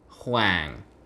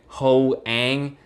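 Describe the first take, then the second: First: The name is said as one syllable. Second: The name is split into two syllables. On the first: The speaker calls it right. "it's Hoang" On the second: The speaker calls it wrong. "it's not ho-ang"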